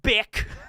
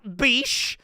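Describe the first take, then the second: First: The name ends with a k sound. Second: The name ends with an sh sound. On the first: "not Bick" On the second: "Not Beesh"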